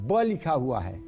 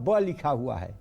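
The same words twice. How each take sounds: No difference in how they are said.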